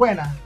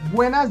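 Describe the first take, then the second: First: The final s is dropped. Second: The final s is pronounced. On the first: "se saltan las S" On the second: "En lugar de decir"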